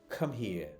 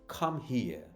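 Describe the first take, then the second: Both takes have the same delivery.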